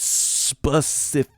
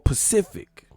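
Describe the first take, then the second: First: The word begins with the s sound. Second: The word begins without the s sound. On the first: The speaker calls it right. "It's specific" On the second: The speaker calls it wrong. "That's not how you say it"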